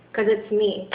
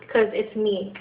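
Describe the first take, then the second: No difference in how they are said.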